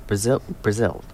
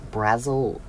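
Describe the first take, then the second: First: "Brazil, Brazil" said bruh-ZIL, stress on the second syllable; "Brazil" with a short uh, then a stressed ZIL; corrected pronunciation. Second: "Brazil" said BRAZZ-ul, stress on the first syllable; "Brazil" with a flat a, first syllable stressed; wrong pronunciation. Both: Real, not acted. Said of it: "Why am I saying Brazil?".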